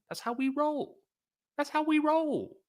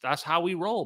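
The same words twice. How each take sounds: First: Very high, squeaky mock boast; playful falsetto. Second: Said in the usual way. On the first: Streamer playfully boasting to viewers, squeaky falsetto. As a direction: repeat the catchphrase way up high.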